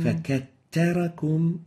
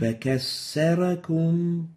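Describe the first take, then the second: First: The doubled consonant is a t sound. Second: The doubled consonant is an s sound. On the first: "So we're having ta instead of the tha" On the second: "sin instead of the tha. This is wrong"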